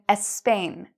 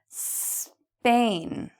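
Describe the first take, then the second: First: An extra vowel sound comes before the s. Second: The word begins directly with the s sound. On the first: The speaker calls it wrong. "instead of saying Spain, you're saying Espain" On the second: The speaker calls it right. "That one was better"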